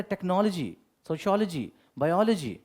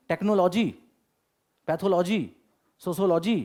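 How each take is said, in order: First: टेक्नोलॉजी, सोशियोलॉजी, बायोलॉजी with the "lo" squeezed short, tek-nol-ji, and falling ends; correct pronunciation. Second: टेक्नोलॉजी, पैथोलॉजी, सोशियोलॉजी with a full, separate "lo" syllable and lifted ends, imitating how students said them; old way of saying it. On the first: Shown as a demonstration. Teacher shows students the right way to say टेक्नोलॉजी, tek-nol-ji, falling. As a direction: say बायोलॉजी as bai-ol-ji, clipped middle. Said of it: "क्या दिक्कत है?".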